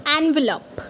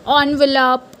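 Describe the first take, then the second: First: Envelope as en-vuh-lope; the correct envelope. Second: Envelope as on-vuh-lope; the mistaken envelope; wrong way. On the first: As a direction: say envelope starting with an open en. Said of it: "It's envelope". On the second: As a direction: say envelope starting with on. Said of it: "You might have said it envelope". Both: Shown as a demonstration.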